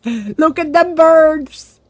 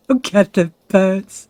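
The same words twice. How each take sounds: First: Higher, louder and slow with amazement; excited. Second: Laughing as he points out the birds. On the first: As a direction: stretch it out in delight. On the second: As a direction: chuckle through it, slowly. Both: Real, not acted.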